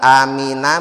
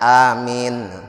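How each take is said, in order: First: The word ends with a full final vowel. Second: The word ends on a stopped final consonant.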